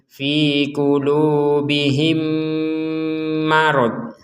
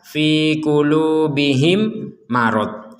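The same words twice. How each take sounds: First: The two m sounds merge with a held nasal hum. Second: The m is pronounced clearly without a nasal hum. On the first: The speaker calls it right. "Jadi dibaca dengung" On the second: The speaker calls it wrong. "Kalau dibaca jelas"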